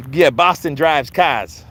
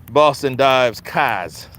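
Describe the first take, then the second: First: Said in the usual way. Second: Boston accent with "dives" said without the r, slow. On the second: Shown as a demonstration. Mocking how Boston folks say drives, in a Boston accent. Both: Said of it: "I stayed in Boston".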